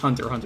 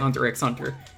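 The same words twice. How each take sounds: First: The middle X is left silent. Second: The middle X is pronounced aloud. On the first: The speaker calls it right. "is just Hunter x Hunter" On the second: The speaker calls it wrong. "You don't say Hunter x Hunter"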